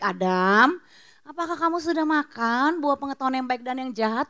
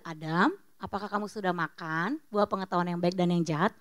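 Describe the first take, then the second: First: Gentle question. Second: Much softer, lower and tender; gentle question. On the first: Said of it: "Tuhan tanya baik-baik". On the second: God gently asking Adam, soft and tender. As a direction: ask it kindly, like a patient father. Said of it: "Kan nggak". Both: Acted.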